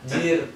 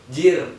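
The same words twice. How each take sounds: First: It sounds disappointed. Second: It sounds surprised.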